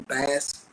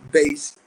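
First: The vowel sounds like the one in 'mass'. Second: The vowel sounds like the one in 'base'. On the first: This is how the computer misread it. The speaker calls it wrong. "the computer would say bass" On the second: This is the intended musical word. The speaker calls it right. "instead of saying bass"

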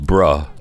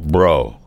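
First: The word ends in an 'uh' vowel. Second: The word ends in an 'oh' vowel. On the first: "B-R-U-H, bruh" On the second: "B-R-O, bro"

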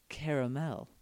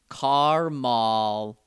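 First: It is said with three syllables. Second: It is said with two syllables. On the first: This is the more usual way of saying it. "instead of caramel" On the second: This is a regional way of saying it. "You guys say car-mall"

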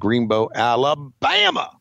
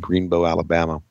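First: It is said in a drawling Southern imitation. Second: It is said in the speaker's plain voice. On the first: The speaker calls it right. "That's the right way to say it" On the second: The speaker calls it wrong. "I shouldn't have said it like that"

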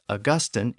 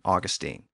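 First: The name is said the typical British way. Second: The name is said the non-British way. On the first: "typically pronounced Augustine in Britain" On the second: "I'm going to use the other pronunciation"

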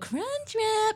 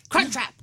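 First: It is said in a soft, undemanding voice. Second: It is said in a sharp, demanding voice.

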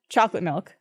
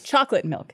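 First: The stress falls on the word milk. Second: The stress falls on the word chocolate. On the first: "And he goes, no, it's chocolate milk" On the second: "I say chocolate milk because it's milk that's chocolate"

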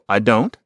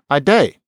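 First: The standard form with the vowel of don't. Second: Shortened further to day, with no final t. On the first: "So I don't"

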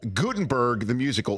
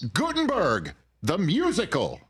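First: It is said plainly with calm, level energy. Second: It is said loudly with exclamatory, heightened energy.

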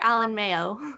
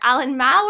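First: The surname is two syllables, like 'mayo'. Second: The surname is one syllable, like 'mao'. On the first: The speaker calls it wrong. "Mayo, so, like mayonnaise" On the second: The speaker calls it right. "it's supposed to be Mao"

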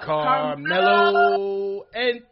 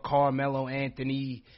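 First: The name is said in a booming announcer voice. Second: The name is said in a plain speaking voice. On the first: The speaker calls it right. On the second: The speaker calls it wrong.

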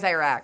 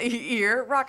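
First: The first syllable does not sound like 'ear'. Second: The first syllable sounds like 'ear'. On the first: "My mouth could never. It's always Iraq" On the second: "just think of go-go. Ear. Rock"

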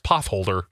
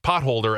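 First: The t and h merge into one th sound. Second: The t and h are said as separate sounds. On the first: The speaker calls it wrong. "as potholder" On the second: The speaker calls it right. "I mispronounced potholder"

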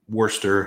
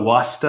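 First: It is said in a plain, general accent. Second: It is said in a put-on Boston accent. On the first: The speaker calls it wrong. "I didn't do my Boston accent" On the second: The speaker calls it right. "I'll stop trying to do my Boston accent"

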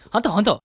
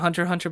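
First: It is said in a put-on Japanese accent. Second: It is said in a plain American accent. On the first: "Do it in a Japanese accent" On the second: "I think you say it Hunter Hunter"

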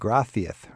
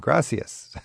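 First: The middle consonant is a TH sound. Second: The middle consonant is an S sound. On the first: "what's up with the TH, as in gracias" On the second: "rather than gracias"

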